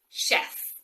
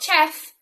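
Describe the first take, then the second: First: It begins with a 'sh' sound. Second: It begins with a 'ch' sound. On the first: The speaker calls it right. "The ch sound is actually sh" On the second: The speaker calls it wrong. "not chef"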